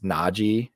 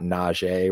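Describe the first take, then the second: First: The name is said in a plain English way. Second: The name is said in a French-sounding way. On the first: The speaker calls it right. "it's Najee" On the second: The speaker calls it wrong. "It's not Najee. We're not making French porn here"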